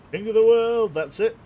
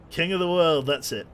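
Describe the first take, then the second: First: Big, much higher, much louder triumphant yell; Jack Sparrow style. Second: Loud playful yell, a bit higher; mock movie cry. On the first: Pretend. Captain posing at the bow, hammed-up triumphant shout. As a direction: belt it from the bow like a movie hero. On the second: Captain at the bow quoting the movie, playful loud yell. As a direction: throw out the movie line with a grin. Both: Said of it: "Jack Sparrow style".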